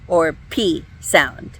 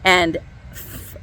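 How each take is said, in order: First: The letter is said as a stop, p. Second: The letter is said with friction, f. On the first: The letter has a dagesh. "that plosive sound, a stop sound" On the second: The letter has no dagesh. "it's going to have a fricative sound"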